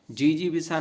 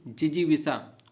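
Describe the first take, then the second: First: जीजीविषा with long first ई; wrong pronunciation. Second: जिजीविषा with short first इ; correct pronunciation. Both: Shown as a demonstration. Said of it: "जीजीविषा नहीं".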